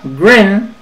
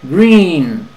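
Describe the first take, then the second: First: The vowel is cut very short. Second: The vowel is held long. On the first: The speaker calls it wrong. "si la dices muy corta" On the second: The speaker calls it right. "alarga la I"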